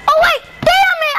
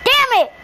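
First: Higher, louder yell of annoyance; real gamer rage shout; frustrated shout. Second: Said in the usual way. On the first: Real, not acted. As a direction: shout it when the jump fails. Missed jump, repeats louder.

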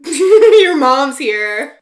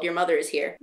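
First: Much louder, higher, slow drawn-out call; mock officer call. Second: Said in the usual way. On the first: Shown as a demonstration. The officer calls to Alexis, hammed-up drawn-out call. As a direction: ham up the desk officer's announcement.

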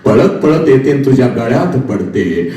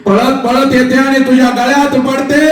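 First: Said in the usual way. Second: Much higher, ringing preacher wail; high cry rising on पडते; soaring repeat. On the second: Shown as a demonstration. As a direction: lift it high to stir the crowd.

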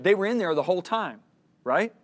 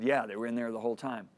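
First: Higher, louder insistence; emphatic point. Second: Said in the usual way. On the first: Retold or imitated. God teaching the speaker about hidden impurities, emphatic point. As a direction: drive the point home, then check for agreement.

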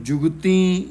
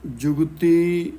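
First: ਜੁਗਤੀ with a nasalised final ee; wrong nasal ending. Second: ਜੁਗਤੀ slow, with an oral final ee; no nasal ending. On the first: Teacher shows what not to say, ਜੁਗਤੀ ending nasal. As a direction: nasalise the last vowel of ਜੁਗਤੀ. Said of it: "ਇਹਨੂੰ ਜੁਗਤੀ ਨਹੀਂ ਕਹਿਣਾ". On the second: Teacher corrects the reading, ਜੁਗਤੀ without nasal ending. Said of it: "ਬਿੰਦੀ ਨਹੀਂ ਲਾਉਣੀ". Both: Shown as a demonstration.

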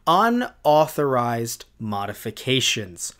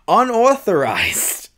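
First: "unauthorized modifications" slow and lower, each word set apart; careful re-pronunciation. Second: "Unauthorized" loud, high and drawn out; over-emphasized, botched word. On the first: YouTuber correcting a fumbled word, "unauthorized modifications" said slow and careful. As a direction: pronounce "unauthorized modifications" deliberately, in a lower pitch. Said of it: "I didn't even pronounce it right the first".

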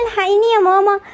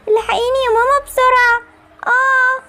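First: Tearful plea, voice catching; a sick child crying out for her mother; crying for mom. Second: Higher, panicked plea with rising urgency; frantic cry for help. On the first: Sick daughter calls her mother for help, crying. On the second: Sick daughter begs her mother to hurry, panicked. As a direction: push the fear up as if about to collapse. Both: Acted.

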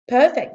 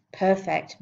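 First: Higher, louder delighted; a pleased photographer. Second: Said in the usual way. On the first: A narrator's reading. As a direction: photographer happy with shot.

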